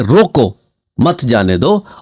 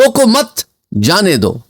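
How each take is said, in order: First: There is a pause after 'roko'. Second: There is a pause after 'mat'.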